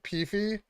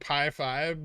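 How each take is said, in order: First: It is said as one blended word, 'peefy'. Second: It is said as two words, 'pie five'. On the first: The speaker calls it right. "but Peefy" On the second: The speaker calls it wrong. "I prefer to not pronounce it like Pi Five"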